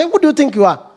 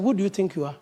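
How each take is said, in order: First: Pointed challenge. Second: Much softer, quietly asking Who do you think you are; muttered self-check, said inward; to oneself. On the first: Retold or imitated. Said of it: "I talk to a point with the children". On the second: Shown as a demonstration. Preacher questioning himself privately, softly to himself. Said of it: "then I just talk to myself".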